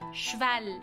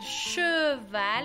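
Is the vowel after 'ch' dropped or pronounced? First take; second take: dropped; pronounced. First: The vowel after 'ch' is dropped entirely. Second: The vowel after 'ch' is clearly pronounced. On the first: The speaker calls it right. "vamos a decir cheval" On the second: The speaker calls it wrong. "No vamos a decir cheval"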